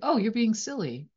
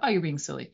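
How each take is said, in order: First: It is said in a light, casual tone. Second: It is said in an annoyed, dismissive tone. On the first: The remark is harmless and friendly. "for the other person, that's just like" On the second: The remark feels belittling to the listener. "that might be really frustrating and annoying and triggering"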